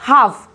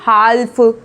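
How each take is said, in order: First: The L is silent. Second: The L is sounded. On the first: The speaker calls it right. "हम इसको बोलेंगे हाफ" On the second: The speaker calls it wrong. "ना कि हाल्फ"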